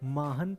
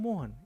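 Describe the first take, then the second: First: The first syllable has an 'aa' vowel. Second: The first syllable has an 'o' vowel. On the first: The speaker calls it wrong. "आप मोहन को माहन क्यों बोल रहे हैं" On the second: The speaker calls it right. "क्योंकि म में ओ की मात्रा लगा है ... ये इसका सही उच्चारण है"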